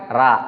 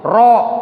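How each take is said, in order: First: It is thin, with lips not pushed forward. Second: It is thick, with lips pushed forward. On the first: The speaker calls it wrong. "bukan ra, ru. Itu salah" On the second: The speaker calls it right. "Tafkhim tebal itu artinya bibirnya maju"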